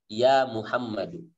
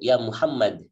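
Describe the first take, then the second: First: The name ends with a short 'u' vowel. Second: The name ends on a bare 'd' consonant. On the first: "berubah menjadi tidak tanwin" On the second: "disukunkan, diwakafkan"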